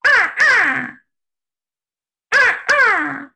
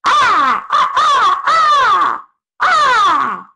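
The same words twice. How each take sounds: First: High crow caws, more laid back; fish crow caw. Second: Loud harsh crow caws, very high; American crow caw. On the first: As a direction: caw like a relaxed fish crow, less harsh. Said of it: "a fish crow goes". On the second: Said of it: "American crow goes". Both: Shown as a demonstration.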